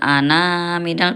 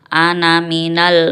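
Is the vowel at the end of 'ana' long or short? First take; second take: long; short. First: The final vowel of ana is drawn out long. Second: The final vowel of ana is kept short. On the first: The speaker calls it wrong. "bukan ana minal" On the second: The speaker calls it right. "tapi ana minal muhtadin"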